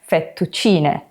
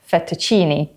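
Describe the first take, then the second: First: The final vowel sounds like 'eh'. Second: The final vowel sounds like 'ee'. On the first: The speaker calls it right. "the letter E in Italian is pronounced as E" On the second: The speaker calls it wrong. "Tourists often pronounce words that end in the letter E in Italian as an E sound"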